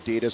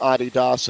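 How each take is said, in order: First: It is said the way Americans say it. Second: It is said the way most of the world says it.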